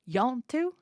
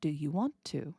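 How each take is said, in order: First: "Yant do" as two quick syllables, rising high; run-together Southern form. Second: "Do you want to" with every word sounded; careful full form. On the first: Teacher replays the Southern question to decode it, "Yant do" run together and rising. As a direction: squash you want to into "Yant do", lifting the end. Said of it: "The question ends with the word to". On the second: Teacher giving the meaning of the slurred question, "Do you want to" in full. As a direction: say "Do you want to" clearly, settling lower. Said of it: "with the participle to".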